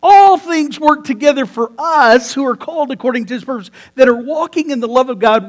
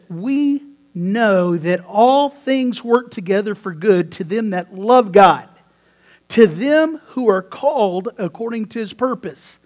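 First: Forceful restatement. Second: Scripture reading. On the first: Real, not acted. Preacher restates scripture with force. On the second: Shown as a demonstration. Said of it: "It says this".

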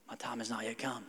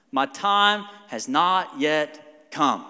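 First: Much softer, lower, lazy mumble; a cheeky kid dodging the shower; kid's mock excuse. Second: Very slow, solemn answer; Jesus' reply. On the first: Son dodges dad's shower order, soft mock mumble. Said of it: "It's kinda like when my kids". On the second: Retold or imitated. Jesus answers his mother slowly and solemnly. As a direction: draw each word out gravely. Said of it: "What was his response?".

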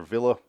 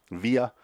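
First: Villa said VIL-uh, short i with a clear l; trying out Villa as VIL-uh; one way to say Villa. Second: Villa said VEE-uh, long ee with the l swallowed; trying out Villa as VEE-uh; other way to say Villa. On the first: Guessing the actor's name: Villa as VIL-uh. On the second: Second guess at the name: Villa as VEE-uh. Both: Shown as a demonstration. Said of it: "or Villa".

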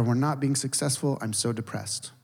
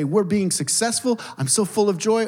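First: Mock depressed. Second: Mock cheerful. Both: Contrasting happy vs depressed voice.

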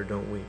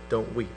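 First: Much softer and lower, "Don't weep" nearly hushed; tender "Don't weep". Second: Soft, low and gentle, "Don't weep" said like comfort; tender "Don't weep". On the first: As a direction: barely breathe "Don't weep" to the widow. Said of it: "he said to her". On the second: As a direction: ease "Don't weep" out gently, as Jesus would. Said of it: "he's saying to her". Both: Retold or imitated.

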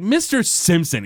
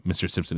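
First: Frustrated. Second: Said in the usual way. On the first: Retold or imitated. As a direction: snap the name out in exasperation. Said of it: "he's getting frustrated". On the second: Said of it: "he's like".

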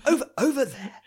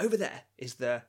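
First: High, loud mock American accent. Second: Said in the usual way. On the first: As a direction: put on an exaggerated American accent. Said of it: "in an American accent". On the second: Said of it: "not in this English accent".

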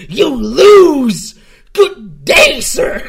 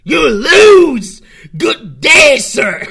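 First: High shouted Wonka "You lose. Good day, sir."; a furious Wonka dismissing a guest at full volume; Willy Wonka impression. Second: High shouted Willy Wonka "You lose. Good day, sir."; Willy Wonka impression. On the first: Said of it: "a Willy Wonka impression". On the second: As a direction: yell it like an outraged Wonka dismissing a guest. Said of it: "that really sounds like the, a Willy Wonka impression".

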